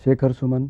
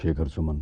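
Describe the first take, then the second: First: The name is spoken at a higher pitch. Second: The name is spoken at a lower pitch. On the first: "जैसे अभी ये मैं इस सुर में बोल रहा हूँ ना" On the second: "अब थोड़ा सा सुर नीचे गया"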